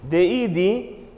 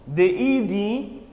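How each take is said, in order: Both takes have the same delivery.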